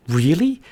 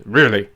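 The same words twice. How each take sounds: First: High, rising REALLY from a small bird; high-pitched questioning bird; surprised little bird. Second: Loud, falling REALLY from the wolf; wolf's unraised, falling reply; surprised big wolf. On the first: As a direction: ask "Really?" high and amazed. Bird surprised by wolf's nose. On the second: Wolf surprised by bird's offer. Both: Acted.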